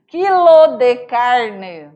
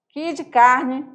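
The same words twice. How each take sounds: First: Quilo de carne spelled out slowly, each syllable clear; careful full Quilo de carne; slow full form. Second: Quilo de carne blended into "kidicarne"; mineiro run-together. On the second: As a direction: merge Quilo de carne into one word. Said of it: "Eles pronunciam assim". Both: Shown as a demonstration.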